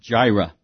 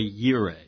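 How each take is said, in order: First: The word begins with a J sound. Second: The word begins with a Y sound. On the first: The speaker calls it wrong. "Some people pronounce it Jireh" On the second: The speaker calls it right. "but it's Yahweh Yireh"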